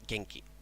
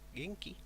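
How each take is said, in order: First: The pitch falls at the end. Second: The pitch rises at the end. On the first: It states that the speaker is well. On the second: It asks whether the listener is well.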